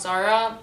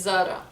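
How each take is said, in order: First: Zara with an American R; American accent. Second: Zara with a tapped R; Lebanese pronunciation. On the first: Showing what is not said, American accent. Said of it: "Not Zara". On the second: Showing viewers the Lebanese way, tapped R in Zara. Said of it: "it's Zara". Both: Shown as a demonstration.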